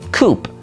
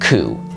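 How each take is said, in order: First: The word ends with an audible P sound. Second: The word ends without any P sound. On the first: The speaker calls it wrong. "it's very easy to assume that this word ... is pronounced coup" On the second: The speaker calls it right. "pronounce this word with the silent P"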